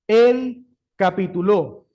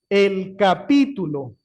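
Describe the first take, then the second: First: The stress falls on the final syllable lo. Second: The stress falls on the syllable pi. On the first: A man stopped what he was doing. "Esto es un verbo y está en pasado" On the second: It names a section of a written work. "el capítulo es un fragmento de un estudio"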